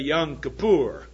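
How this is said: It imitates a Hebrew-speaking pronunciation. "They say Yom Kippur. I can't quite get it out exactly the way they do"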